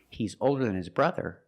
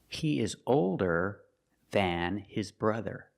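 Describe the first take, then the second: First: The words run together, with a reduced vowel. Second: The words are slow and separate, with full vowels. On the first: "If you link your words and say it all together" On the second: "If you speak very slowly, the word is pronounced than"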